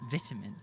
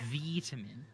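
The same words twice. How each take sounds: First: The first vowel is short, as in 'it'. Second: The first vowel is long, as in 'eye'. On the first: This is how the speaker says it. "I say vitamin" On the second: This is how the speaker does not say it. "not vitamin. I don't go around taking my vitamins for my vitality"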